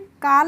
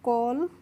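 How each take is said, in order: First: The vowel is an open 'ah' sound. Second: The vowel is a rounded 'aw' sound. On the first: The speaker calls it wrong. "काल नहीं पढ़ेंगे" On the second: The speaker calls it right. "इसको हम पढ़ेंगे कॉल"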